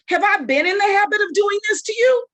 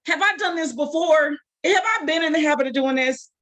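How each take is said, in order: First: Exasperated shout. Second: Sarcastic donkey. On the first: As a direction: throw the question back at him hard. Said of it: "It had some attitude". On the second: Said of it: "some sarcasm". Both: Acted.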